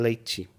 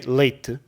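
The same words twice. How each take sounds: First: It is said with Brazilian ch-like t. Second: It is said with European Portuguese plain t.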